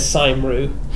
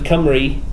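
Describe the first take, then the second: First: The word begins with an S sound. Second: The word begins with a K sound. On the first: This is how a speech synthesizer misreads it. The speaker calls it wrong. "their speech says Saimru" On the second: This is the proper Welsh pronunciation. The speaker calls it right. "instead of Cymru"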